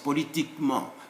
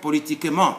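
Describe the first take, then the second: First: The e before -ment is silent. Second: The e before -ment is pronounced. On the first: The speaker calls it right. "it's politiquement, like that" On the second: The speaker calls it wrong. "So it's not politiquement"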